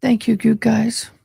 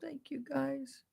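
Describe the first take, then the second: First: Said out loud, clearly; full-voiced thank you; louder thanks. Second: Whispered thanks. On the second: Emotional thanks after sister's death. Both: Real, not acted.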